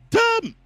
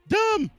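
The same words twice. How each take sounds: First: The reply is said loudly and forcefully. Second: The reply is said fairly quietly. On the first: The speaker calls it right. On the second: The speaker calls it wrong.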